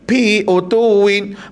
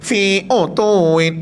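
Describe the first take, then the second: First: The first word starts with a p sound. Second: The first word starts with an f sound. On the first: The speaker calls it wrong. "fi pun salah sebut, dia bunyi pi" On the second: The speaker calls it right. "nama bunyi utuwin, fi utuwin"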